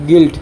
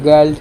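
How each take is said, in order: First: The vowel sounds like 'i', as in 'gild'. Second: The vowel sounds like 'ar', as in 'garld'. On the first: The speaker calls it right. "সঠিক উচ্চাৰণ হ'ল গিল্ড" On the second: The speaker calls it wrong. "বহুতে পঢ়িব গাৰ্ল্ড"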